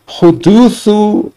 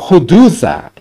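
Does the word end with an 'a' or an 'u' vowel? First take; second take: u; a. First: The word ends with an 'u' vowel. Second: The word ends with an 'a' vowel. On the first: It is the subject of a passive verb. "atau hudutsu kalau yudraku" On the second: It is the object of an active verb. "hudutsa bisa dibaca hudutsa kalau yudriku"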